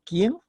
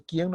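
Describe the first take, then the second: First: "Quién" higher with a quick rise; questioning emphasis. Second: Said in the usual way. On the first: Shown as a demonstration. Teacher citing the accented word, "Quién" with questioning emphasis. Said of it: "estoy dándole énfasis de pregunta". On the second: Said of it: "estoy haciendo una afirmación nada más".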